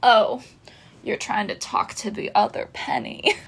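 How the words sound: It is said in a put-on Penny Twenty-Three voice.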